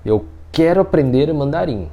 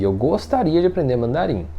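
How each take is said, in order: First: Firm, committed "quero"; firm want. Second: Tentative "gostaria", lightly drawn; milder wish. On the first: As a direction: state it as a decided intention. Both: Shown as a demonstration. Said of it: "é diferente você falar assim".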